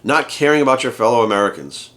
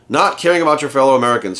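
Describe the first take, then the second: First: Said in the usual way. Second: NOT pressed hard, the rest falling away; incredulous repeat with Not punched; stress on NOT. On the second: Shown as a demonstration. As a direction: lean on the word Not in disbelief.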